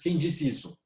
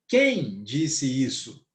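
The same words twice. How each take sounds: First: It is said flat, like a statement. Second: It is said with questioning intonation.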